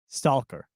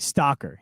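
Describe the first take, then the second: First: The L sound is clearly pronounced. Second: The L sound is left out. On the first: The speaker calls it right. "No, that's an L" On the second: The speaker calls it wrong. "You're saying like stalker"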